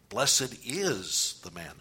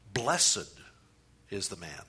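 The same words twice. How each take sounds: First: The word 'is' is stressed. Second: The word 'blessed' is stressed.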